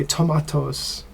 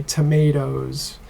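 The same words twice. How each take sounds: First: Tomatoes with an AH sound, to-MAH-toes; British tomatoes. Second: Tomatoes with an AY sound, to-MAY-toes; American tomatoes. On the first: Teacher contrasting for the class the British tomatoes, to-MAH-toes. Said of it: "for British English, they say tomatoes". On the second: Teacher showing the class the American tomatoes, to-MAY-toes. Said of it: "we say tomatoes". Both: Shown as a demonstration.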